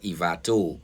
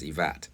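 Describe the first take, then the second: First: The word ends with a final vowel sound. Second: The word ends with a consonant sound. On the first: This is how the name is written. "It's actually spelled Ivato" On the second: This is how people actually say the name. "everybody pronounces it as Ivat"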